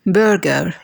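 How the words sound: It has an American accent with the R pronounced. "بأمريكان accent نقول"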